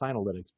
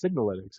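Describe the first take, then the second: First: The first syllable sounds like 'sin' without g. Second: The first syllable sounds like 'sig' with g. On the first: The speaker calls it wrong. "I used to mispronounce that one" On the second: The speaker calls it right. "but it's Signalytics"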